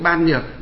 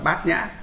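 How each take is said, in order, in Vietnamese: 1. Đọc theo các âm tiết ban nhược. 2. Đọc theo các âm tiết bát nhã. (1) "ở ngoài đời họ đọc là ban nhược" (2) "nhà Phật chúng ta thì đọc trại âm đi"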